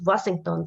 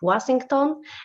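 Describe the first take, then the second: First: The name is said the English way. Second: The name is said the Greek way.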